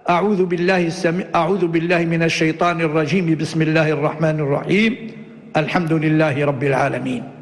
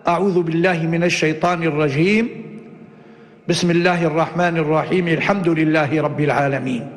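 First: A pause comes only after the second phrase. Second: A pause comes only after the first phrase. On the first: "وصل الأول بالثاني مع الوقف عليه وقطع الثالث" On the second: "قطع الأول ووصل الثاني بالثالث"

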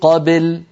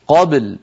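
First: The b leans toward a short i vowel. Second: The b is vowelless with a quick echoing bounce. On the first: The speaker calls it wrong. "لا نقول قبل بل هكذا لا يصح" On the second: The speaker calls it right. "نقلقل الباء ساكنة ونتبعها بلام ساكنة"

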